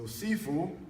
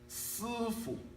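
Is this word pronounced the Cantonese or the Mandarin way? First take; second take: Cantonese; Mandarin. First: It is pronounced the Cantonese way. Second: It is pronounced the Mandarin way. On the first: "is Cantonese" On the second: "is Mandarin"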